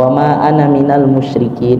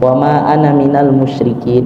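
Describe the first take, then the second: First: The vowel in ana is kept short. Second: The same.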